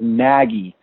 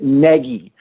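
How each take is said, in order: First: The first vowel sounds like the one in swaggy. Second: The first vowel sounds like the one in leggy. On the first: This is the team's official pronunciation. The speaker calls it wrong. "they like the hashtag Swaggy Nagy" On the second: This is how the person himself says it. The speaker calls it right. "as in leggy, N-E-G-G-Y was how I heard it"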